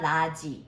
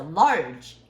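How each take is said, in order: First: "large" said as "la-ji", two syllables without r; Korean-style mispronunciation. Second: "large" as one strong syllable with a clear r; correct English pronunciation. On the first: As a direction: end "large" on a ji vowel, like kimchi. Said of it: "it's not large". ("large"를 "라지"처럼 r 없이) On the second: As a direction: curl the r in "large", no vowel at the end. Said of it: "It's not kimchi". ("large"를 r을 살려 한 음절로 힘주어) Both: Shown as a demonstration.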